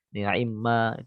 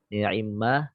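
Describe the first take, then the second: Both takes have the same delivery.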